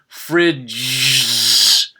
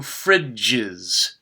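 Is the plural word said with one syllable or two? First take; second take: one; two. First: A z is squeezed on, giving one syllable. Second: An extra syllable is added, giving two syllables. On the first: The speaker calls it wrong. "I would add a z. But listen to what that sounds like. It's really hard to say" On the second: The speaker calls it right. "Did you hear how there were two syllables?"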